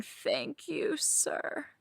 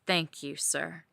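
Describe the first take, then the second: First: Thin high cry on "Thank you", "sir" breathed out voiceless; a high broken wail of gratitude. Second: Said in the usual way. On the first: Acted. Thanking her dom mid-scene, high breaking wail. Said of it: "I am wailing". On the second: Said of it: "I nod and cry happy tears".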